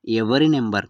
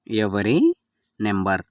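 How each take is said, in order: First: Said in the usual way. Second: Word by word. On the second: Shown as a demonstration. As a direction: separate ఎవరి and number for learners. Teacher repeats phrase word by word. (పదం పదంగా, మధ్యలో ఆగి)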